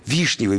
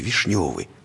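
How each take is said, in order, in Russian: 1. Ударение падает на первый слог. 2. Ударение падает на второй слог. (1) "Вишневый – это гектар 200 земли, которую можно разбить, которая может приносить доход" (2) "А они относятся как к вишневому, поэтому ее поправляют периодически"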